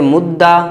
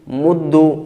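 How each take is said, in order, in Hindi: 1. दोहरा व्यंजन a स्वर पर खत्म होता है। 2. दोहरा व्यंजन u स्वर पर खत्म होता है। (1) "दूसरे को फ़तह" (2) "दमा"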